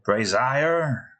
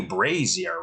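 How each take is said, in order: First: "Brazier" said as bray-ZY-er; bray-ZY-er pronunciation. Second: "Brazier" said as BRAY-zee-er; BRAY-zee-er pronunciation. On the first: Testing another way to pronounce it, "Brazier" as bray-ZY-er. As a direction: try "Brazier" with a long i, bray-ZY-er. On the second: Doubting how to pronounce it, "Brazier" as BRAY-zee-er. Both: Shown as a demonstration. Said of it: "How the hell do you pronounce that".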